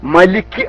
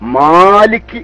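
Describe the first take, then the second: First: The first vowel is short. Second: The first vowel is lengthened. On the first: The speaker calls it wrong. "ചെറിയൊരു നീട്ടല് വല്ലാതെ കുറുകി വരുന്നുണ്ട്" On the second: The speaker calls it right. "മലിക്ക് അല്ല മാലിക്ക് ആണ്"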